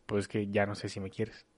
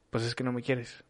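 First: Much softer, lower doubting "ya no sé si me quieres". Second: Soft, sulky accusation of "no me quieres"; accusing tone. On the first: Partner voicing doubt about love, soft and low. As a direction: let the doubt sink the voice. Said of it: "O decir". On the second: Partner accusing lover of not loving them, soft and sulky. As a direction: mutter it as a hurt reproach. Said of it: "el tono de nuestra voz dice otra". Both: Shown as a demonstration.

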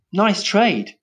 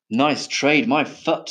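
First: High-pitched, casual approval; breezy approval. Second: Scornful echo. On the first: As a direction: toss off NICE TRADE lightly. Breezy remark, later scornfully echoed. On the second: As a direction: indignantly throw NICE TRADE back. Scornful echo by the firework maker. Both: A narrator's reading.

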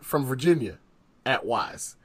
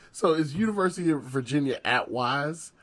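First: "From Virginia", long pause, then "at Wise"; the coach spacing out "Virginia ... at Wise"; dramatic pause. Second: Said in the usual way. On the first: Shown as a demonstration. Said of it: "the pause in between University of Virginia and the at Wise". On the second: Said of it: "the pause in between".

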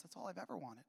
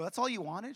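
First: Very soft retold answer; quiet confession. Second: Retold disbelief, pitched up; surprised question. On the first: Mother admitting her one wish to son, quietly. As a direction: answer simply, in a hushed voice. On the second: Son astonished at mom's small wish, surprised. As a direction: ask it in raised-voice disbelief.

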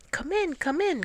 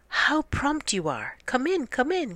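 First: Dog calling them in, much higher. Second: Higher, gushing welcome; Cat greets Dog with false delight; Cat crying out. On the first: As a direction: call out a cheery welcome as Dog. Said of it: "called Dog". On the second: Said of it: "cried Cat to Dog". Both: A narrator's reading.

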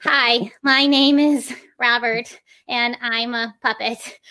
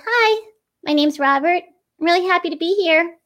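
First: Slow, stilted puppet speech, each syllable separate; syllable-by-syllable beginner puppet. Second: Higher, friendly puppet voice with flowing phrases; inflected puppet voice. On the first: Teacher imitating beginners with a puppet, slow and stilted. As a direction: plod through it one syllable at a time. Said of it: "they move the head with every single syllable". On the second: Teacher showing how a puppet introduces itself, higher and lightly inflected. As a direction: lift the pitch and let the phrases flow. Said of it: "add these little inflections and moments".

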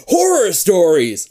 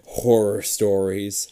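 First: "Horror stories" louder, slow and exclaimed. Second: Said in the usual way. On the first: Shown as a demonstration. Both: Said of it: "Nick exclaims".

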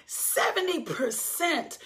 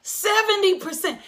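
First: "seventy percent" drawn out slowly and softly; hushed emphasis. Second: "Seventy percent" pitched high and punched out; amazed emphasis. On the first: Nurse reports "seventy percent" of the floor went home, hushed emphasis. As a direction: let "seventy percent" land slow, high and quiet. Nurse's startling figure, first take. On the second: Preacher repeats "Seventy percent" to the congregation, amazed emphasis. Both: Retold or imitated.

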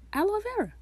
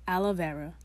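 First: Aloe said "AL-oh vera", high pitched; corrected pronunciation. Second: Aloe said "AL-uh vera"; mispronounced. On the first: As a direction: Aloe with a clear oh ending. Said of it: "I said it right". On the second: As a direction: aloe with an uh ending. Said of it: "I'm gonna say it wrong". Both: Shown as a demonstration.

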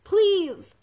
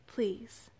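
First: High, loud pleading cry; desperate shout. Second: Faint, whispered request; whispered plea. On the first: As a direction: shout a plea with what strength is left. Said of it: "Lily shouted with what little strength". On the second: Weak girl accepts being carried. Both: A narrator's reading.

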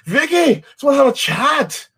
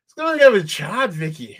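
First: High, mock British accent, calling Vicky in; hammed-up British detective voice; mock British cop. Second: High mock British accent, fading out on the name; second go at the British detective line; mock British cop. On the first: Quoting a Line of Duty cop, mock British accent. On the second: Quoting the show again, mock British accent.

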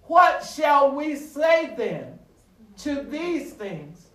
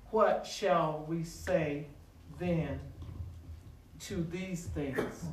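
First: Slow, raised, ringing question; drawn-out pulpit challenge, easing at the end; emphatic scripture quote. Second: Low, soft, slow reading with pauses; hushed, deliberate recitation; measured scripture reading. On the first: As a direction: proclaim the verse to the congregation. Verse repeated as the climax builds. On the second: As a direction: read the verse quietly, phrase by phrase. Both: Real, not acted.

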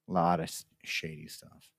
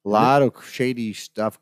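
First: Much softer, dropping to a near whisper; hushed aside. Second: Said in the usual way. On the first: Real, not acted. Traveller confiding about shady airport dealings, hushed. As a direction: repeat it under your breath, confidentially. Repeats the remark under his breath.

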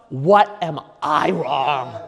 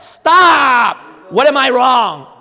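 First: Slow, deliberate self-check; measured, effortful question to yourself; forced self-questioning. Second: High, loud cut-off of your own thoughts; forceful, raised-voice self-rebuke; shouted self-command. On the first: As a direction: spell it out slowly, making yourself ask it. Forcing himself to think. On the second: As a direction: yell at yourself to stop and think. Shouts down his own protest. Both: Acted.

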